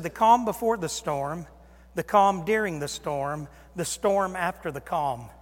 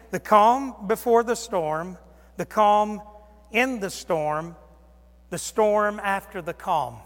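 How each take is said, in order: First: Said in the usual way. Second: "The calm before the storm" drawn out slow and loud; slow emphasis. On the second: Shown as a demonstration. Preacher driving home MacArthur's outline slowly.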